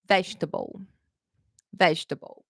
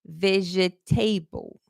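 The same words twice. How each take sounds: First: Vegetable in three syllables, VEJ-tuh-bul; correct pronunciation. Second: Slow vegetable as veh-jeh-TAY-bul; common mispronunciation. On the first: Teacher models the word for students, correct pronunciation. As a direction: stress the start of vegetable, swallow the rest. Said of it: "going to pronounce the words correctly". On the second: Teacher imitates learners' mistake, mispronounced slowly. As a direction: sound out every syllable of vegetable, ending in TABLE. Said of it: "Let me tell you what I hear a lot". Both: Shown as a demonstration.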